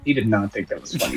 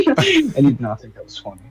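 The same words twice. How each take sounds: First: Much softer, a little lower retake; quiet deadpan repeat; soft repeated aside. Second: Said in the usual way. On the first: Real, not acted. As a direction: mutter it again under the breath.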